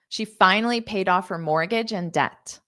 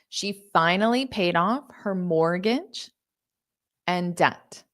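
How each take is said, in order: First: The sentence is spoken at a fast pace. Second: The sentence is spoken at a slow pace. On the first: "I'll say it fast" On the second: "I'll say it slow"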